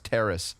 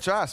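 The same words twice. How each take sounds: First: The word is said with an English pronunciation. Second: The word is said with a French Canadian pronunciation. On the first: The speaker calls it right. "Yesterday you finally filled me in. Connor, it's terrace" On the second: The speaker calls it wrong. "I've been calling it terrace. ... The French Canadian way"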